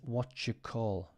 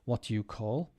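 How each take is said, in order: First: "Do you" is blended into one "jew" sound. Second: "Do you" is said as two clear words.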